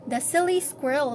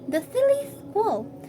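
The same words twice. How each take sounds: First: The s sounds are clear hissing s sounds. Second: The s sounds come out like th sounds. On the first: "While those we speak it fluently" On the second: "those people rather who suffer with lisping, they will say it"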